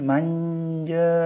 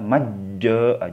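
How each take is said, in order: First: The n is a hidden nasal like ny. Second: The n merges completely into the j. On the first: The speaker calls it right. "harus ada ada seolah-olah ada kata-katanya ny-nya" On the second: The speaker calls it wrong. "jangan karena ini bukan idgham"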